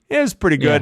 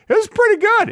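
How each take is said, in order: First: It sounds lukewarm and unimpressed. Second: It sounds warm and genuinely pleased. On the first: It was mediocre. "Is like a three or four" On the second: It was quite good. "It's like a seven or eight"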